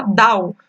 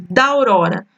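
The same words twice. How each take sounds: First: "dau" with da and au merged into one syllable; elided syllables. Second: "da aurora" with every syllable said apart, da then au-ro-ra; separate syllables. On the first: Teacher shows students how "dau" blends into one syllable. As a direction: run "dau" together in one breath. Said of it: "você fala ... tudo de uma vez". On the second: Teacher shows the class "da aurora" with each syllable kept separate. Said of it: "por exemplo, ali". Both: Shown as a demonstration.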